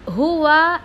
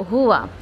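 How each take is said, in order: First: हुआ said short and clipped at the start; the mistaken हुआ, cut short; wrong way to say हुआ; wrong reading. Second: हुआ said straight and normal, lower; plain correct हुआ; correct reading. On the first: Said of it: "हुआ ऐसा नहीं करना है इसको". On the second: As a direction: model हुआ. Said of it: "सीधा नॉर्मल पढ़ा जाएगा". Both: Shown as a demonstration.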